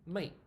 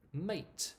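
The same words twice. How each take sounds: First: Mate said as mei, the t held back; mate without t. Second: Mate with a crisp final t, rising; dictionary mate. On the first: Teacher showing the unreleased t in mate. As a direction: start the t of mate but don't release it. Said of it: "we don't actually say it". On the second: Teacher showing the dictionary mate with a clear t. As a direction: say mate with the t fully released. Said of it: "the pronunciation will be". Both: Shown as a demonstration.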